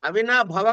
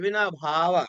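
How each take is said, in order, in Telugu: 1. 'bh' తర్వాత అచ్చు హ్రస్వం. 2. 'bh' తర్వాత అచ్చు దీర్ఘం. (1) "అవినాభవ కాదు" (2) "భాకి ఒత్తు పెట్టడం"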